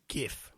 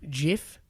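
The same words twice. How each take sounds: First: The word starts with a hard g sound. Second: The word starts with a soft j sound. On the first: "the word is now widely pronounced with a hard G" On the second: "pronounced it with a soft G, soft G as in GIF"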